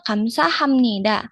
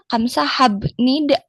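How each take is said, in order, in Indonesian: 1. Bunyi m ada sebelum nida. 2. Bunyi b ada sebelum nida. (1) "Tapi dibacanya" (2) "harusnya kamsahabnida ya kalau membaca dari hurufnya"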